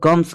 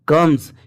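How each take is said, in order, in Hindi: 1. शब्द का अंत फुसफुसाती हुई s आवाज़ से होता है। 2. शब्द का अंत भनभनाती हुई z आवाज़ से होता है। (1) "ज्यादातर लोग कम्स कहते हैं" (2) "नहीं कम्स ... एस लगने पर ज पढ़ रहे हैं"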